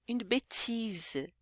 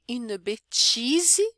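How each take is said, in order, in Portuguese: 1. É falado com pronúncia francesa. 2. É falado com pronúncia brasileira.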